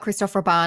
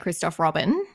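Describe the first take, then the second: First: The name is said in a French way. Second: The name is said in an English way. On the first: The speaker calls it right. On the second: The speaker calls it wrong.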